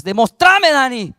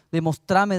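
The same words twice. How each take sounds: First: Louder, higher mock shout of Demostrame; retold shout. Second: Said in the usual way. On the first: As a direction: throw Demostrame out as a demand. (grito imitado: Demostrame más alto y fuerte) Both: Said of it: "Así me gritaba".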